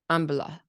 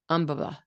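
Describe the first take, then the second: First: All three syllables get equal stress. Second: The same.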